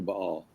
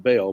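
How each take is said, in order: First: "Baal" in two syllables, "bah-AHL"; correct pronunciation. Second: "Baal" as one syllable, like "bale"; alternative pronunciation. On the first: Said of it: "but it's actually Baal". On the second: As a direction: say "Baal" to rhyme with "sail". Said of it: "Sometimes pronounced Baal". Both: Shown as a demonstration.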